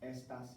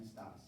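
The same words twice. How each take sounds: First: "Estas" stressed on ES; stress on first syllable. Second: "estás" stressed on TÁS; stress on last syllable. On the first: Teacher contrasting accents for class, "Estas" stressed up front. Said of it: "without the accent, it means it's another word". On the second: Teacher contrasting accents for class, "estás" stressed at the end. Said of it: "it's going to have an accent". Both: Shown as a demonstration.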